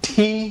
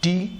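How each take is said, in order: First: The t sound has a puff of air. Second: The t sound is plain, without a puff of air. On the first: The speaker calls it right. "ठी सही है" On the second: The speaker calls it wrong. "टी गलत है"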